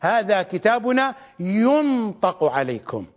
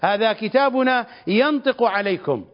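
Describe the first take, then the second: First: The verb is said with a passive 'yun-' vowel pattern. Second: The verb is said with an active 'yan-' vowel pattern. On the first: Someone speaks through the book. The speaker calls it right. "وإلا فإن القراءة الصحيحة هي هذه" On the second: The book itself speaks. The speaker calls it wrong. "فإننا نقرأ هكذا"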